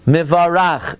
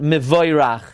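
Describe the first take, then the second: First: The second vowel is a plain 'a'. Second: The second vowel is the diphthong 'oy'. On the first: The speaker calls it right. "become Atzachazet" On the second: The speaker calls it wrong. "not Mivoirach"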